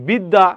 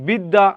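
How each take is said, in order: Both takes have the same delivery.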